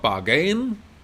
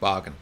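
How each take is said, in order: First: The stress is on the second syllable. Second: The stress is on the first syllable. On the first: The speaker calls it wrong. "So it's not bargain" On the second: The speaker calls it right. "You want to stress the first syllable"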